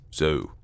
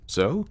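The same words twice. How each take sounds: First: SO lower, dropping to a close; confirming statement. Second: SO rising high into a question; questioning repeat. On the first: Sanderson confirms the gesture to Clayton, settled and falling. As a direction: say "So" as a settled answer, pitch falling. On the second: Clayton checks the gesture Sanderson showed him, questioning. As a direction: say "So?" as a check, pitch climbing. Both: A narrator's reading.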